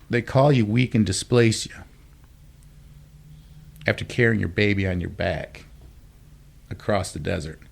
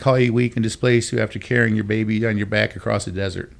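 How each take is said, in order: First: The line is said with dramatic pauses inside. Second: The line is said straight through without pausing.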